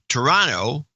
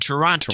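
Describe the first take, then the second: First: The second T is dropped. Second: The second T is clearly pronounced. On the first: The speaker is from the town. "Natives always said Toronto" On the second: The speaker is not from the town. "visitors forced a second T"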